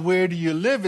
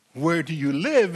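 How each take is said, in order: First: Said in the usual way. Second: "Where do you live?" falling, "live" weighted; "Where do you live?" dropping in pitch on "live"; deeper meaning. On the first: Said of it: "it's not so much about". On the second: Shown as a demonstration. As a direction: ask it as a question about belonging. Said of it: "it's about, "Where is your father".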